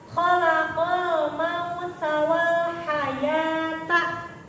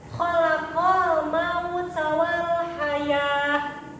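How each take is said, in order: First: The last word keeps its full -ta ending. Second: The last word ends in a soft h sound. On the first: The reading continues without stopping. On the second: The reader stops on this word.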